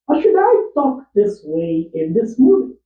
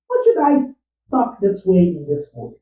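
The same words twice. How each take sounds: First: Much higher pitch, a bit louder, rising. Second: "should" hit firmly, higher, falling at the end; stress on should. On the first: Actor auditioning a high new voice for his film. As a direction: push the voice up high and ask. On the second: Actor testing a firmer take of the same line. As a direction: lean on "should" and let it fall. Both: Shown as a demonstration. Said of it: "Is this how I want to sound".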